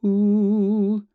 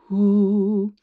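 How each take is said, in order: First: Open-chested ooh with a steady breathy H, higher and louder; supported ooh. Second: Ooh with the chest dropping, unsupported, higher and louder; collapsed chest ooh. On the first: Coach contrasting open chest: supported ooh. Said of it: "So it's ooh, not ooh". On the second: Coach showing the wrong way: collapsed ooh. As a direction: let the chest sag on ooh. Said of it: "not ooh". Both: Shown as a demonstration.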